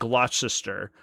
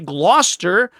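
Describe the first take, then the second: First: The word is said with three syllables. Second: The word is said with two syllables. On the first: "people would correct you when you, you said it Gloucester" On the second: "If you want people to say Gloucester, spell it G L O S T E R"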